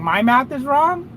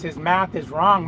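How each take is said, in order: First: Higher, rising disbelieving question; can't believe he's saying my math is off; incredulous echo. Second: Said in the usual way. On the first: Real, not acted. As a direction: repeat the accusation back in disbelief.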